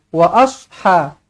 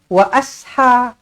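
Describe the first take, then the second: First: The s sound is heavy and thick. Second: The s sound is light and thin. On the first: The speaker calls it right. "kena baca sod ni dengan tebal" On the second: The speaker calls it wrong. "jangan baca"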